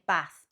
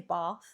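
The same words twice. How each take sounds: First: It is said in a northern English accent. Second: It is said in a southern English accent. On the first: "you'd say bath" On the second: "up north, ... you wouldn't say bath"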